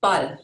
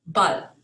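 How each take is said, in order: First: Ball said as bahl, short open a, louder; German Ball. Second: Ball said as bahl, short open a; German Ball repeated. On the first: Teacher modeling German Ball with an open ah. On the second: Teacher repeating German Ball for learners. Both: Shown as a demonstration. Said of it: "is pronounced".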